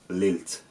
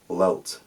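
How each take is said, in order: First: Both l sounds are clear, with no velarization. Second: Both l sounds are dark and velarized. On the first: "A Cumbrian speaker would say lilt, lilt, with l, I, l, t" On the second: "certain Scottish speakers might say lelt, lelt, with l, e, o, t, velarized across the board"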